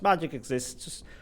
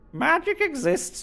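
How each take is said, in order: First: It is said in the speaker's ordinary voice. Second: It is said in a put-on character voice. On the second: "let's try to do it in the voice of the chantry lady in Durham"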